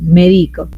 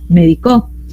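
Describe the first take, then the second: First: The stress is on the second syllable. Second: The stress is on the last syllable. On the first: "En la penúltima sílaba... hizo grave la palabra" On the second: "saltando hasta la última en aguda la volvió"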